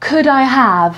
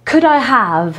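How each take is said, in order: Both takes have the same delivery.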